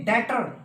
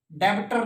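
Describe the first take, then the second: First: 'debtor' said as 'detter'; debtor with silent b. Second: Wrong 'debtor', b pronounced; debtor with b sounded. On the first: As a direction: drop the b in debtor. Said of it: "silent बी". ('डेटर', 'ब' silent) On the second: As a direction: put a b into debtor. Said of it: "नहीं". ('डेब्टर', 'ब' बोलकर गलत) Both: Shown as a demonstration.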